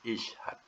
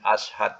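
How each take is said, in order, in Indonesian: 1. Kata ini dimulai dengan vokal 'i'. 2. Kata ini dimulai dengan vokal 'a'. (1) "awalnya kena bunyikan bawah ya" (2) "jadi tak boleh bunyi ashad, tak boleh"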